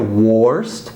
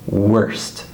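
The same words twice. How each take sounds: First: The vowel sounds like 'or'. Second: The vowel sounds like 'er'. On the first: The speaker calls it wrong. "We don't say worst" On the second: The speaker calls it right. "we say worst"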